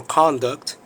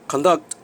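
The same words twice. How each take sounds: First: "conduct" stressed on the first syllable, CON-duct; noun stress. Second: "Conduct" stressed on the second syllable, con-DUCT; verb stress. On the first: Teacher showing learners the noun form, "conduct" stressed on CON. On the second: Teacher showing learners the verb form, "Conduct" stressed on DUCT. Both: Shown as a demonstration. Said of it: "both a noun and the verb".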